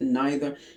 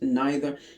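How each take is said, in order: First: It is said with a British pronunciation. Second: The same.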